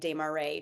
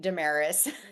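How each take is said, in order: First: The surname is said with a French pronunciation. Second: The surname is said with an Americanized pronunciation. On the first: This is the original, correct version of the name. "I made the decision to start pronouncing it Desmarais" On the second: This is the family's adapted version of the name. "a lot of my family members say Damaris because they just Americanized it"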